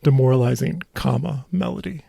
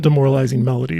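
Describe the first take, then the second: First: "demoralizing," then a clear break before "Melody"; pause before Melody. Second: "demoralizing Melody" run together quickly, no break; no pause before Melody. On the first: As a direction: set "Melody" apart after a pause, as the comma marks it. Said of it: "Not demoralizing Melody, but". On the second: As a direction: rush "demoralizing Melody" as one phrase. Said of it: "but demoralizing, comma, Melody". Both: Shown as a demonstration.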